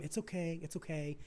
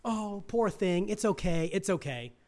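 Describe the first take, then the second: First: Put-on hushed, much softer "it's okay" to a hurt child; soft hushed comforting; soothing parent. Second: Mock coddling parent. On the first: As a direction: murmur it like a parent holding a kid with a scraped knee. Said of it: "the parent that goes to the kid". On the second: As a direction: lightly play the doting dad. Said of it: "not the little girls".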